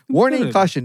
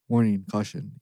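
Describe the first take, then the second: First: The voice is pitched too high. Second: The voice is pitched lower.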